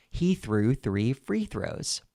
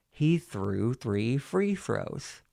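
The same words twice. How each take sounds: First: Said in the usual way. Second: Slow, joined-up words; legato with pen in teeth. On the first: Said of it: "and then without it". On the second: Shown as a demonstration. Coach demonstrating the second tongue twister, slow legato. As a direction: run it together slowly round a pen. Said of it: "legato with the pen in your mouth".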